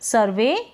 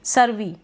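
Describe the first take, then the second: First: The word ends with an 'ay' sound. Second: The word ends with an 'ee' sound. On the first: The speaker calls it right. "ई वाई को हम ए इस तरीके से pronounce करेंगे" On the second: The speaker calls it wrong. "नहीं ये गलत हो जाएगा ना"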